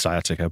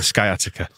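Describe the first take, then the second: First: The c is silent, giving an s sound. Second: The c is sounded as a k. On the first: The speaker calls it right. "It is sciatica" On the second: The speaker calls it wrong. "I like the idea of it being sciatica"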